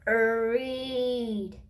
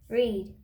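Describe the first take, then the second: First: The word is sounded out slowly, sound by sound. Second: The word is said quickly as one blended unit. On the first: "say the sounds" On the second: "then say it fast"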